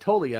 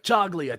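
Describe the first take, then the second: First: The g in the name is silent. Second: The g in the name is pronounced. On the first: This is how the announcers officially said it. The speaker calls it right. "Silent G" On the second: This is how most people said it. The speaker calls it wrong. "everyone was like"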